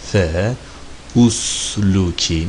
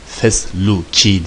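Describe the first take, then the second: First: The words are split apart with a separate vowel. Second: The words are joined into one smooth word. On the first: "parça parça okursan fe usluki" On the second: "fesluki diye okunur"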